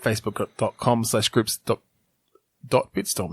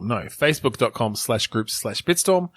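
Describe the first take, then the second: First: Said in the usual way. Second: "slash groups slash Bitstorm" said slowly and clearly; careful correction. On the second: Real, not acted. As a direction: spell out "slash Bitstorm" deliberately, word by word.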